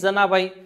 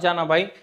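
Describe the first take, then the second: First: The first consonant is a hard dental sound. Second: The first consonant is a soft palatal sound. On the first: The speaker calls it right. "जनाबाई म्हणताना काय झालं तर अ आला" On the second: The speaker calls it wrong. "जानाबाई म्हणताना काय आला असं या आला"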